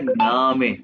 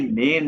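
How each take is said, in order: First: The word is said 'nah-meh' with an open vowel. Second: The word is said like English 'name'. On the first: The speaker calls it right. "ये ए को आ, ना में, ये हम पढ़ेंगे नामे" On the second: The speaker calls it wrong. "ये नेम नहीं है"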